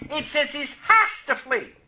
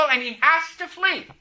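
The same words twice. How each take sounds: First: "has" hit higher and held; stress on has. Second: "has" pushed and held firm; stress on has. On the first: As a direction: insist on "has": he has to flee. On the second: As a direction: lean hard on "has" in "he has to flee". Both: Shown as a demonstration. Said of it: "It doesn't say he might flee".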